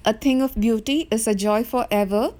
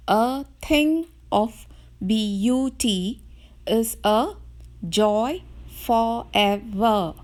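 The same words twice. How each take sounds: First: Said in the usual way. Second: Slow, every second syllable stressed; iambic stress reading. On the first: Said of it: "The first line of the poem". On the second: Shown as a demonstration. Teacher showing the class iambic pentameter, slow beat-by-beat reading. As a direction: read it slowly in iambic beats, da-DUM da-DUM. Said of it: "you can read the first line as".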